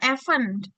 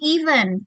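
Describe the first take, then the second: First: The first vowel sounds like E. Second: The first vowel sounds like I. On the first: The speaker calls it wrong. "bukannya bukan event" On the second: The speaker calls it right. "tapi event"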